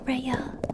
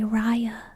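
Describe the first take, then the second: First: The name is said like the start of rabies. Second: The name is said the usual way, as Raya. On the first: The speaker calls it right. "But it's Rhea. Like rabies" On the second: The speaker calls it wrong. "the unconventional pronunciation because everyone wants to say Raya"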